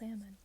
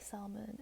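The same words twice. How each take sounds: First: The word is not pronounced the way it's spelled. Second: The word is pronounced the way it is spelled. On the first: This is how others say it. The speaker calls it right. "no, it's pronounced salmon" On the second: This is the speaker's former pronunciation. The speaker calls it wrong. "that's just how it's spelled. It's spelled salmon, but I used to say salmon"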